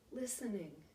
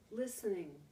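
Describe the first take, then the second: No difference in how they are said.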